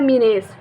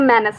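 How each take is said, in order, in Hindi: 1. पहला स्वर लंबी 'ee' ध्वनि है। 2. पहला स्वर छोटी 'e' ध्वनि है। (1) "मैं इसको पढ़ती थी पहले मीनेस, नहीं नहीं" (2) "इसको बोलते हैं मैनस"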